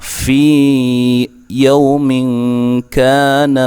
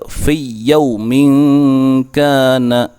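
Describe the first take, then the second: First: The first word's vowel is held long. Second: The first word's vowel is short and merged. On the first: The speaker calls it right. "harus dibaca dengan panjang" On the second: The speaker calls it wrong. "tidak boleh membaca"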